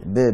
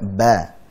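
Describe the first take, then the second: First: The syllable is said with an 'e' vowel. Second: The syllable is said with an open 'a' vowel. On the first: The speaker calls it wrong. "Jangan ber" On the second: The speaker calls it right. "Banyak dibuka"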